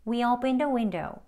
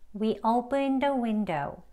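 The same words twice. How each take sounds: First: It is said faster, with the words run together. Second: It is said slowly and carefully, word by word. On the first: "대화 발음으로 조금 빠른 속도로" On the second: "책 발음으로 연습해 보시겠습니다"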